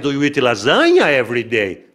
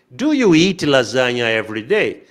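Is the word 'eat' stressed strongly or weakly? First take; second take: weakly; strongly. First: The word eat is not stressed strongly. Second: The word eat is stressed strongly.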